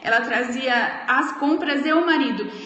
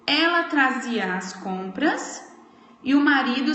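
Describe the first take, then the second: First: There is no pause before 'e o marido'. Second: There is a pause before 'e o marido'. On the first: She seems to be carrying the husband too. The speaker calls it wrong. "pode causar uma, uma pequena confusão" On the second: The husband starts a new clause with his own action. The speaker calls it right. "Eu dei uma pausa aqui"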